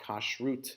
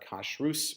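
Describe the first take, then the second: First: The word ends with a t sound. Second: The word ends with an s sound. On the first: This is how the speaker's own community says it. "as we would uh, pronounce it" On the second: This is how the magazine's title says it. "but Kashrus magazine"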